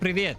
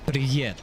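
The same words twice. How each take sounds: First: The final v sound is short. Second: The final v sound is long. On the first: "The V was too short" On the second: "Like that?"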